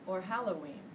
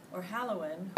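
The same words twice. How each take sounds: The two takes are said the same way.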